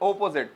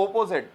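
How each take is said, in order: First: The first vowel is an o sound. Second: The first vowel is an o sound.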